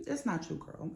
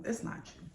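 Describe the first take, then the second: First: Soft reassurance. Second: Whispered "It's not you." with no voice; an unvoiced whispered "It's not you.". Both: Real, not acted.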